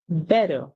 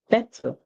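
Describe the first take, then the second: First: It is said in an American accent. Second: It is said in a British accent. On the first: "That's the American pronunciation" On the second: "That's the British pronunciation"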